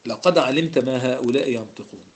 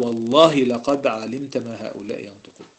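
First: Said in the usual way. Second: Slow, weighty stress on والله; والله drawn out and pressed, then لقد علمت firm; oath spelled out. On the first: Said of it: "لام دي في جواب القسم". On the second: Shown as a demonstration. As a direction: lean on والله as a sworn oath, slowly. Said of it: "كأنه قال".

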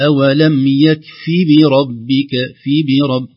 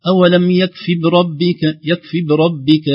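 First: Slow, loud بربك with a distinct "bi"; clear kasra. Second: High, slow بربك with the first b left vowelless; wrong dropped kasra. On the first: Teacher giving the correct reading, clear kasra. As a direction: recite يكف بربك voicing every short vowel. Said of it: "نكسر هذه الحركات". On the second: Teacher imitating what some recite, dropped kasra. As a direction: squash "bi-rabbika" in بربك to "brabbika". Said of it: "لا يظهر كسرة الباء". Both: Shown as a demonstration.

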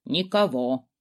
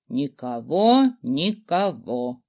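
First: Muttering skull. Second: Slow drawn-out creature mutter; slow sing-song muttering. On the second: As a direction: stretch each word, lilting. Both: A narrator's reading. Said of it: "забормотал".

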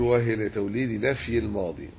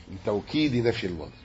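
First: Said in the usual way. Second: لتوكيد with a clear k where the slip had l; re-read the phrase, fixing the word to لتوكيد; corrected reading. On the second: Real, not acted. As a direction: say li-tawkid, k sounded clearly, as a correction.

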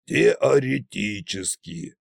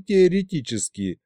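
First: Slow, sceptical ТЕОРЕТИЧЕСКИ; scornful snort. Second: Said in the usual way. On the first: A narrator's reading. Tsar mocking the expert's caveat, scornful. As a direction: echo теоретически slowly and dismissively. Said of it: "снова фыркнул Кощей".

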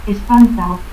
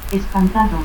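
First: Espantao without its D; dropped D. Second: Said in the usual way. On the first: Shown as a demonstration. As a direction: end in "-ao": Espantao. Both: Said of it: "pérdida de la D intervocal".

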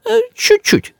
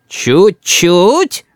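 First: Very high, tiny placating voice; backpedalling. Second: Drawn-out questioning menace, rising at the end; threatening. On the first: Grandmother softens her criticism, backpedalling. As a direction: make "чуть-чуть" sound tiny, high. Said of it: "даёт бабушка задний ход". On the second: Boy challenges grandmother's retreat, menacing. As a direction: query it with a threatening rise. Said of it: "уточняет Рис угрожающе". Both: A narrator's reading.

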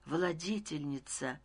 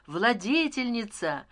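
First: Soft, hushed narrated murmur; whispering. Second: Slow, drawn-out narrated call; crying out. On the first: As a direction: breathe the title quietly, almost to yourself. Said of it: "прошептал я". (тихо, почти шёпотом) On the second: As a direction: hail the ruler from the crowd, stretching the word. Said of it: "стал кричать я". (протяжный возглас толпы) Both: A narrator's reading.

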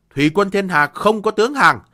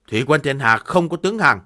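First: Higher, louder proud cry; defiant shout. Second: Firm, louder proud refusal; defiant declaration. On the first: Defiant general repeats refusal. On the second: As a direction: declare it with pride. Defiant general refuses surrender. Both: Acted.

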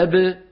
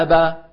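First: أب with the lips popping apart and no vowel after; أب ending in a bouncing b release, jaw kept still; qalqala ba. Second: أبا with the jaw dropping into a full open a; أبا said with a clear vowel after the ba, lips and jaw apart; open ba with fatha. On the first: Teacher showing the qalqala ba against the open one. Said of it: "تباعدت الشفتان دون الفكين". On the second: Teacher contrasting a vowelled ba with a qalqala ba. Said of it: "إذا ابتعد الفكان صارت باء مفتوحة". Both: Shown as a demonstration.

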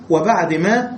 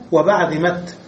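First: ما with the long a kept; original ma. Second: مت said with a final t; taa ending. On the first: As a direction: say وبعد ما with the full vowel. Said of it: "أصلها بعد ما أيضًا". (بعد ما بالألف) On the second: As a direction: close مت on a clear t. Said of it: "ثم بدل الهاء تاء". (الوقف بالتاء: وبعد مت) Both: Shown as a demonstration.

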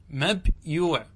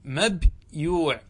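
First: Said in the usual way. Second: "مبيوع" drawn out slowly, the ياء kept and sounded in full; teacher modelling "مبيوع" slowly for students; Tamim dialect form. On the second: Shown as a demonstration. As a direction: spell out "مبيوع" syllable by syllable, slowly. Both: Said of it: "ولغة تميم تصحيح ما عينه ياء".

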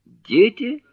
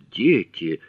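First: Very high, louder rising question on «Дети?»; startled question. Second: Newly interested. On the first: Acted. Jherek catches at the mention of children, startled and high. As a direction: shoot the voice right up in surprise. Jherek suddenly struck by the word. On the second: A narrator's reading. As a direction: take the word in with interest, near normal pitch. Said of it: "но сейчас он заинтересовался".

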